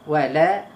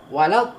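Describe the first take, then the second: First: The final vowel is a plain open 'a'. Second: The final vowel glides into a rounded 'au'. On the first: The speaker calls it right. "Lam sengih, la" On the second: The speaker calls it wrong. "Walau tak perlu"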